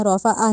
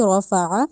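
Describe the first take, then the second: First: رفع with the ain stretched to a long alif; wrong ain. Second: رفع ending with ain from the throat, no alif. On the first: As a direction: drag the end of رفع into an alif. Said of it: "رفع نہیں کہنا". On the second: Teacher models correct throaty ain in رفع. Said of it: "اس کو حلق سے نکالنا ہے". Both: Shown as a demonstration.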